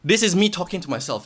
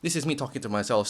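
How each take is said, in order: First: Said in the usual way. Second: Quiet. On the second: Real, not acted. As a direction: drop to a soft aside.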